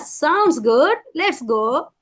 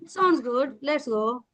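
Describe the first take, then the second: First: It sounds happy and excited. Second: It sounds flat and uninterested.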